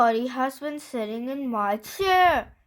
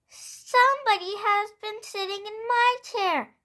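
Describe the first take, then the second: First: It is said in a great big voice. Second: It is said in a wee little voice.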